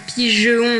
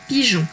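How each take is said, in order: First: The E is sounded as a short schwa. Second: The E is silent, going straight to on. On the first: The speaker calls it wrong. "qui ne se lit pas pigeon" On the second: The speaker calls it right. "mais bien directement pigeon"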